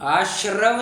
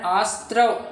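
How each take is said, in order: First: The middle consonant cluster sounds like 'shr'. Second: The middle consonant cluster sounds like 'str'. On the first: The speaker calls it wrong. "आश्रव नहीं" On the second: The speaker calls it right. "इसका उच्चारण आस्त्रव ऐसा होता है"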